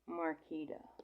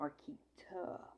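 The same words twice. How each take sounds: First: The last syllable starts with a soft d sound. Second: The last syllable starts with a crisp t sound. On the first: The speaker calls it wrong. "with a D A instead of T A" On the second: The speaker calls it right. "My name is said with a T A"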